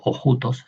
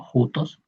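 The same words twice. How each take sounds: First: "ojutos" with a spoken o before the jutos sound; "ojutos", the mistaken version with a leading o; wrong reading. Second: "jutos" with no o in front, starting straight on the j sound, rising at the end; "jutos" pronounced correctly with a slight rising tune; right reading. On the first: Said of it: "por eso no digo ojutos". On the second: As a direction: say "jutos" as the correct form, no leading o. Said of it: "sino jutos". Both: Shown as a demonstration.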